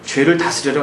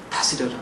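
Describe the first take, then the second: First: 죄를 said with falling stress; stressed command. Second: 다스려라 said soft and much lower; quiet repeated command. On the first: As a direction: lean hard on 죄를 then drop. (죄를 에 힘을 주고 내리며) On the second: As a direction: murmur 다스려라 low and firm. (다스려라 를 낮고 조용히 단호하게) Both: Acted. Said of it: "너는 죄를 다스려라".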